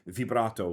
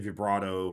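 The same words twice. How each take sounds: First: It is pronounced the way an Italian says it. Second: It is pronounced the common English way. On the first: The speaker calls it right. "I heard that from an actual Italian pronouncing it that way" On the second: The speaker calls it wrong. "Some people say vibrato"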